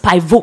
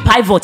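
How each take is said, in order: First: The final T sound is left silent. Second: The final T sound is pronounced. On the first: The speaker calls it right. "the T is silent" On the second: The speaker calls it wrong. "Not be pivot"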